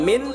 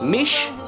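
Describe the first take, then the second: First: It ends in a plain n sound. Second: It ends in an sh sound. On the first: "Bukan min" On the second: "bukan mish"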